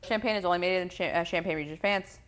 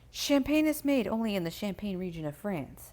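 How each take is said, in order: First: It is said at a fast pace. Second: It is said at a slower pace.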